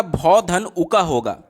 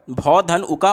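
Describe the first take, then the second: First: भौ धन उका spelled out slowly, syllable by syllable; slow split-up sounds. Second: Said in the usual way. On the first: Shown as a demonstration. Teacher splits भौ धन उका slowly for the students. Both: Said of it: "संधि विच्छेद क्या हो जाएगा".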